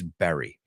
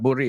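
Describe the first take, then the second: First: The first vowel is open, like in 'bed'. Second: The first vowel is rounded, like in 'book'. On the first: The speaker calls it right. "it's berry" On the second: The speaker calls it wrong. "It's not burri"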